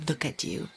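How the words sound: It is said in a scolding, negative tone.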